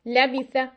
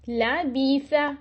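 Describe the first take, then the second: First: The short vowel is clipped abruptly short. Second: The short vowel is stretched long. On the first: "हम इसको एक्स्ट्रा छोटा कर देते हैं" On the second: "तो ये मैं उनको खींच रही हूं"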